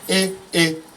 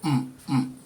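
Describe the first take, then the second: First: A high tone followed by a mid tone. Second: Both syllables are on a low tone. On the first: "high middle" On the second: "low low"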